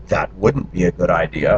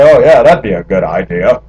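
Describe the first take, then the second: First: Said in the usual way. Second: Sarcastic. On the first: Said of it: "What I mean is". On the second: Retold or imitated. Man joking with friends about their suggestion, sarcastic. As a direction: say it with sarcastic false enthusiasm. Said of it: "when I was sarcastic".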